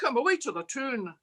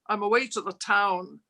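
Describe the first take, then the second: First: It is said in Scottish dialect. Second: It is said in standard English.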